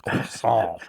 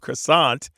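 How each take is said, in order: First: The word is pronounced the French way. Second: The word is pronounced the English way. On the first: It can come across as pretentious. The speaker calls it wrong. "pronounce stuff in in French" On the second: It is the familiar everyday version. The speaker calls it right. "only knows it as an English word"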